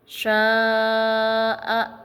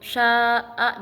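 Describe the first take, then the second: First: The long vowel is held for a long time. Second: The long vowel is held only briefly. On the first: The speaker calls it right. "memanjangkan suara menjadi empat atau lima harokat" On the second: The speaker calls it wrong. "jangan sya'a, jangan seperti mad tabi'i"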